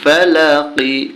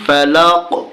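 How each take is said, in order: First: The word ends with a short i vowel. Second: The word ends on the final consonant. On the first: The reading continues without stopping. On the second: The reader stops at this word.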